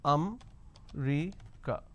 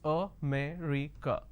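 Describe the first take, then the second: First: The word is said with three syllables. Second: The word is said with four syllables. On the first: The speaker calls it wrong. "they drop a syllable" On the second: The speaker calls it right. "there are four syllables"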